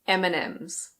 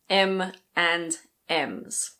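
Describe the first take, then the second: First: It is said quickly and run together. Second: It is said slowly and carefully. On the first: "when we speak, we usually say" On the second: "If you say it slowly"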